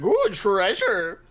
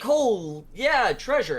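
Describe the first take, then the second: First: Slow, high, loud "ooh"; hammed-up wonder at riches; greedy awe. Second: Loud, high treasure-finder's cheer; retold party excitement; mock delight. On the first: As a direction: draw it out like a tempted looter. Others covet the treasure. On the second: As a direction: act pleased at a big find. Party reacts to finding treasure.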